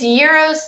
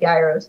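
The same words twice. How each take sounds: First: It is said the native Greek way. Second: It is said the way it is spelled. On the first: "is like the way you're supposed to say it" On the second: "it looks like gyros"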